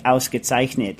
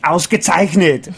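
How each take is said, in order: First: Flat American Ausgezeichnet, plain English vowels; American accent. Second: Slow Austrian Ausgezeichnet in a heavy Arnold voice, louder; heavy Austrian accent; Schwarzenegger accent. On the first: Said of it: "like a, an American". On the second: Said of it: "Arnold Schwarzenegger". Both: Shown as a demonstration.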